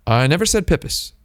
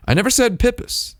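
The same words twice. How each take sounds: First: Said in the usual way. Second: Pippus line pitched way up; emphatic disbelief. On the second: Shown as a demonstration. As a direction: stress on said, rising high. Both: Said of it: "emphatic repeat".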